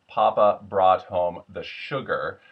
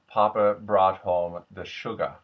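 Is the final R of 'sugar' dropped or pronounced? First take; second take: pronounced; dropped. First: The final R of 'sugar' is pronounced. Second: The final R of 'sugar' becomes an open breath.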